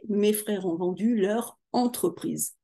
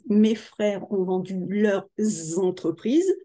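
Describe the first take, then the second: First: No z sound links leur to entreprise. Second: A z sound links leurs to entreprises. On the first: The owners have one business. "au singulier" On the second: The owners have several businesses. "avec une voyelle, on fait la liaison, on l'entend"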